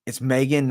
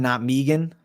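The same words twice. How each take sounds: First: "Megan" with a long ay, MAY-gan; pronounced MAY-gan. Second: "Megan" with a long ee, MEE-gan; pronounced MEE-gan. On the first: Viewer's correction read out, "Megan" said MAY-gan. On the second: Rejecting the wrong name, "Megan" said MEE-gan. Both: Shown as a demonstration.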